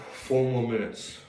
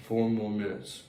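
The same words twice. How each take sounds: The two takes are said the same way.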